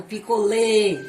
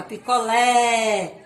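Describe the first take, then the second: First: "picolé" ending in a loud closed ê. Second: "picolé" with a long, loud open é. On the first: Teacher shows the circumflex version, "picolé" with closed ê. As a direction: say "picolé" as pi-co-LÊ, held. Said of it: "teria um som fechado". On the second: Teacher demonstrates the accent, "picolé" drawn out open. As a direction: open the mouth on the end of "picolé". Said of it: "o som sobe e é aberto". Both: Shown as a demonstration.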